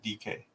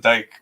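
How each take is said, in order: First: The name is said as two syllables. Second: The name is said as one syllable. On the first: The speaker calls it right. "he pronounces it D K" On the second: The speaker calls it wrong.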